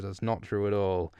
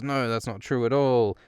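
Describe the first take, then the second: First: Said in the usual way. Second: Half-hearted mock outcry of denial; mild retold yell. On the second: Accused girl denies the attack, mildly mock yelling. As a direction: imitate a child's protest, a touch raised. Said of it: "And Arya yells".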